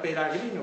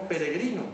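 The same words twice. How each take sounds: First: "peragrino" with a in the second syllable; older form with a. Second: Said in the usual way. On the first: Shown as a demonstration. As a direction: say pe-ra-GRI-no for "peragrino". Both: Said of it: "no era peragrino".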